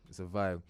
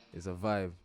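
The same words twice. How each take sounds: The two takes are said the same way.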